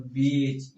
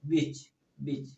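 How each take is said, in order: First: बीच stretched very slowly on a long ee; slow, long-vowel बीच. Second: बीच said with a quick, clipped short ee; short-vowel बीच, no stretch. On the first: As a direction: draw out the ee in बीच like "beach". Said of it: "long sound हो गया". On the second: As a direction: snap बीच off short like "bitch". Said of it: "short sound हो गया". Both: Shown as a demonstration.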